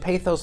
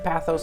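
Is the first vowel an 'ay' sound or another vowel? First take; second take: ay sound; other vowel. First: The first vowel is an 'ay' sound. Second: The first vowel is not an 'ay' sound. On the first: This is the officially correct form. "pathos might be the most officially correct way to pronounce the word" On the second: This is closer to the original Greek. "So I'm sticking with pathos, and I'm probably wrong"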